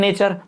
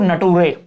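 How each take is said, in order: First: It is said as 'nay-cher' with a 'ch' sound. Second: It is said as 'na-too-ray' with a 't' sound. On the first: The speaker calls it right. "सही तो सब जानते होंगे नेचर" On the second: The speaker calls it wrong. "कुछ लोग पढ़ रहे हैं इसको नटूरे"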